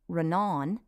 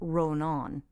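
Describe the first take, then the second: First: Only the second vowel is long. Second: Both vowels are long. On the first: "if it were only on the second syllable" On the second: "since it's on both vowels"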